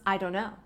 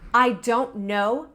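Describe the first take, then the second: First: The T in 'don't' is dropped. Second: The T in 'don't' is pronounced.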